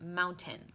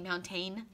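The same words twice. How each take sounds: First: The last syllable sounds like 'ten'. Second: The last syllable sounds like 'tane'. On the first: The speaker calls it right. "So it sounds more like the number ten" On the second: The speaker calls it wrong. "We don't say tane. I don't say mountain"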